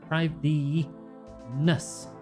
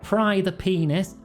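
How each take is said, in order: First: The name is split as 'prive the ness'. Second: The name is split as 'pry the penis'. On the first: The speaker calls it right. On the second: The speaker calls it wrong.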